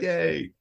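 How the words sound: The yay sounds warm and genuinely happy. The cheer is sincere. The speaker calls it right. "I was like generally like yay"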